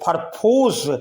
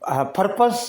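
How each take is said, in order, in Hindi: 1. दूसरा अक्षर 'pose' जैसा सुनाई देता है। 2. दूसरा अक्षर 'pus' जैसा सुनाई देता है। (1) "इसको पर्पोज नहीं पढ़ेंगे" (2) "यहाँ पे ओ साइलेंट होगा और इसको पढ़ेंगे पर्पस"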